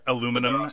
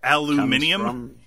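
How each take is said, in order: First: The word is said with four syllables. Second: The word is said with five syllables.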